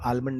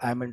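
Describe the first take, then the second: First: It begins with 'al', the l heard. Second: It begins with 'a', the l silent. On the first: The speaker calls it wrong. "आलमंड नहीं बोलते" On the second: The speaker calls it right. "एल always silent होता है"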